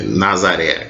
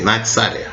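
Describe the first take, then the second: First: The middle consonant is a plain z sound. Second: The middle consonant is a ts sound. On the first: "que seria o nosso Nazaré" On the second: "a palavra renovo no hebraico ela é natsaré, só que a pronúncia é um pouco diferente"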